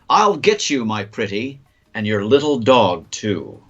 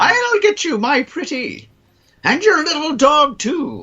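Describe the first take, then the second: First: It is read in the speaker's normal voice. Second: It is read in a put-on witch voice.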